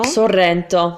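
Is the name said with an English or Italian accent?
Italian. It has a rolled double R and tight vowels. "here you have the double R's"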